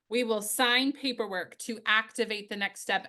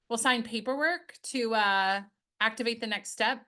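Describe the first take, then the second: First: It flows smoothly with no pause before activate. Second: There is a hesitant 'uh' pause before activate.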